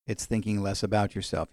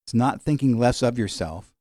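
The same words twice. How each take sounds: First: "about" leaned on, quieter and lower; stress on about. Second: "thinking less of yourself" with the weight on "thinking"; preacher sets up the wrong idea of humility, stressing "thinking". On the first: Preacher corrects congregation, hitting "about" in "thinking less about yourself". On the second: Teaching congregation, stressing "thinking" in "not thinking less of yourself". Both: Shown as a demonstration.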